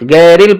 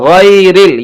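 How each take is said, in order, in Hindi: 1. पहला स्वर सादा e की आवाज़ है। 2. पहला स्वर "ay" डिप्थॉन्ग है। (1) "गैरिल पढ़ते हैं, हालांकि ये नहीं होना चाहिए" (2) "यहां भी आइलीन है, मारूफ पढ़ें"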